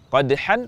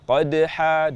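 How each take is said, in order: First: The word ends with a nasal n sound. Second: The word ends with a two-beat long a.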